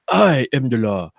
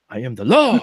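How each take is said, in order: First: The stress is on the word I. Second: The stress is on the word law.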